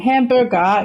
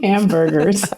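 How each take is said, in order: First: It is said with a Cantonese accent. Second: It is said in a plain accent.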